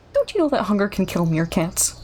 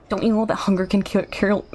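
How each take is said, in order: First: Said in the usual way. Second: Fast, tumbling delivery; rushed character line. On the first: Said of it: "trying to speak so fast". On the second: Acted. Streamer voicing a meerkat, rushing the line to keep pace. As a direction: race through the line. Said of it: "trying to speak so fast for this guy's performance".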